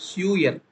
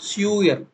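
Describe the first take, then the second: The two takes are said the same way.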